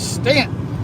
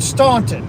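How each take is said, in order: First: It is pronounced the way local residents say it. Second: It is pronounced the way non-residents say it. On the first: "But people from there, it's" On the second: "Most people call it"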